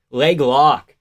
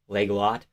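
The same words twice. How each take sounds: First: "lock" said firmly as a statement; correcting the word. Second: "lot" quietly queried with a rise; quiet, low, puzzled check on "lot"; questioning the word. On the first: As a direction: state "Leg lock" at full voice, without a questioning rise. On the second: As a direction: say "Leg lot" low and soft, rising on "lot". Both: Real, not acted. Queries the word, then corrects it.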